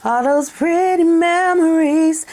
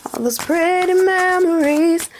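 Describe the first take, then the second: First: Sung. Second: The same line breathed as a whisper. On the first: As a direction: croon it like a ballad. Sings a love song line. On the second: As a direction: whisper the lyric intimately. Whispered repeat of the sung line. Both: Acted.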